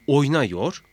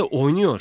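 First: "oynuyor" said as oyna-yor; broken-down form. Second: Said in the usual way. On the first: Shown as a demonstration. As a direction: keep an a before -yor in "oynuyor". ("oynuyor", u yerine a ile) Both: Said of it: "şeklinde ayrıştırıldığında".

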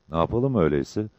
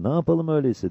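First: Level, composed question; unexcited, practical comrade; Mehmet. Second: High-pitched anxious question; raised, questioning comrade; Cabbar. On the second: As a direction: pitch it up, asking what to do. Cabbar asks, at a loss. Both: A narrator's reading.

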